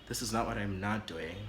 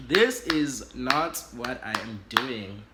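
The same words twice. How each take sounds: First: Said in the usual way. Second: "This is not what I am doing" slow, each word punched; emphatic refusal. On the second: Acted. Part of me refusing the risky man, "This is not what I am doing" stressed word by word. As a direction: hit "This" hard and loud, then space out "not what I am doing".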